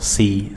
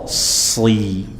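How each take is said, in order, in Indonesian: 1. Bunyi s itu ringan dan tipis. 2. Bunyi s itu berat dan tebal. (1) "jangan mengucapkan shad sekedar sin ditambah o" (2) "Sebisa mungkin kita tebalkan"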